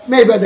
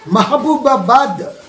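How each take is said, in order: First: The name is squeezed into two short syllables. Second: The name is said with all its syllables. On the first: The speaker calls it wrong. "చివరికి ఆ పేరు కాస్త ఏమైపోతుంది తెలుసా? మేబాద్ అయిపోతుంది" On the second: The speaker calls it right. "మేబాద్ అంటే మహబూబాబాద్"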